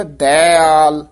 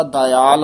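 First: ਦਇਆਲ said "dai-aal", weight on "dai"; emphasised ਦਇਆਲ. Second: ਦਇਆਲ said "da-yaal", short first vowel; common ਦਇਆਲ. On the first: Teacher shows this line's form, ਦਇਆਲ as forceful "dai-aal". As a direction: press the first vowel of ਦਇਆਲ. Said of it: "ਇਹ ਤੇ ਜ਼ੋਰ ਪਾ ਕੇ ਉਚਾਰਨ". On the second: Teacher cites the common form, ਦਇਆਲ as "dayaal". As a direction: pass lightly over the start of ਦਇਆਲ. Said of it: "ਆਮ ਜ਼ਿਆਦਾ ਦਇਆਲ ਆਉਂਦਾ". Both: Shown as a demonstration.

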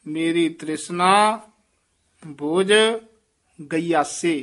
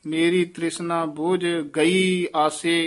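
First: Pauses around ਬੋਝ, then ਗਯਾਸੇ as one word; joined ਗਯਾਸੇ. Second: ਗਈ and ਆਸੇ as two distinct words; separated ਗਈ ਆਸੇ. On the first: Shown as a demonstration. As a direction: set ਬੋਝ apart and run ਗਯਾਸੇ together. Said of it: "ਗਯਾਸੇ ਪਾਠ ਇਕੱਠਾ ਹੀ ਬੋਲਣਾ ਹੈ". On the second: Retold or imitated. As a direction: lift ਗਈ, then start ਆਸੇ afresh. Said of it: "ਇਸ ਤਰ੍ਹਾਂ ਬੋਲਦੇ".

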